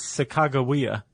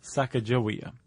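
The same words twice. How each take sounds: First: "Sacagawea" as sa-KAH-ga-WEE-a, hard g; correct pronunciation. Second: "Sacagawea" as SAK-a-ja-WEE-a, soft g; "Sacagawea" with a j sound in the middle; rejected pronunciation. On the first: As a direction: say "Sacagawea" with a hard g, as Sakaga plus Wea. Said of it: "Sakaga is bird and Wea is woman". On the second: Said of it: "not Sacagawea". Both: Shown as a demonstration.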